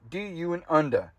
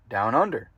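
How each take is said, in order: First: Australian accent built from sound-alike syllables; mock Australian accent. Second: Said in the usual way. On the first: Shown as a demonstration. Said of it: "how to pronounce things in Australian accent". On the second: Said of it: "it sounds like".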